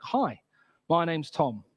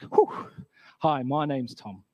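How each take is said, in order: First: A hint of a friendly newcomer; boy introducing himself. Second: Lightly acted, slow reply after a "whew"; retold own reply. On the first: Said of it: "this boy ... comes up to me". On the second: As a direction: puff out, then a slow introduction. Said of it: "And I was like".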